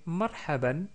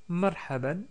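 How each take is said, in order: No difference in how they are said.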